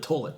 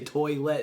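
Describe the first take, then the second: First: The first syllable sounds like 'toll', without 'oy'. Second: The first syllable has the full 'oy' sound. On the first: The speaker calls it wrong. "That's how I say toilet" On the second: The speaker calls it right. "I can say toilet if I think about it"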